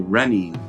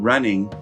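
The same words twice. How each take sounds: First: It ends with a fronted 'een' sound. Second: It ends with a back-of-tongue 'ng' sound. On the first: "make an E E N kind of sound" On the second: "with an mm on the back of the tongue going up"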